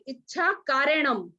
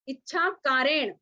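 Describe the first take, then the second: First: The second word ends with a nasal m. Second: The second word ends without a nasal m. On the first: The speaker calls it wrong. "इसमें गलती होने की संभावना कहाँ रहती है कि हम बोलते हैं" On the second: The speaker calls it right. "ण के ऊपर बिंदी नहीं है"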